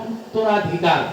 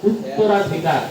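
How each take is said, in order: The two takes are said the same way.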